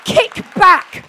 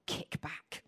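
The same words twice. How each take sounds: First: High, roaring preacher's command; full shout. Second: Low, whispery divine word; hushed. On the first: Preacher rallies congregation with God's word, full shout. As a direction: yell it out with everything you have. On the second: Preacher relays the word heard from God, hushed. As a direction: drop right down, almost whispering it. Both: Retold or imitated.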